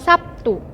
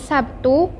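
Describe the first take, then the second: First: The consonant before t is a voiceless p. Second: The consonant before t is a voiced b. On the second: "bunyi B"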